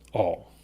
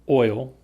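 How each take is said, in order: First: It is said with the small-town vowel. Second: It is said with the common, usual vowel. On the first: This reflects a small-town upbringing. "when I was younger, in a small town, I would say all" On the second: This is the everyday standard way. "the most common is oil. And usually that's the way I say it"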